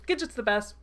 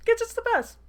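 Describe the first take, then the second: First: Loud, delighted fan cheer in near-usual pitch; excited cheer. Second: Very high, loud fangirl squeal; squealed cheer. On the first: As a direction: cheer for your favourite character. Reader cheers the rescuing character. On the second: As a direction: squeal in delight for your hero. Reader repeats cheer, more excitedly. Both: Real, not acted.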